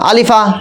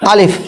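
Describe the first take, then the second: First: The word ends in a short vowel. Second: The word ends in a consonant.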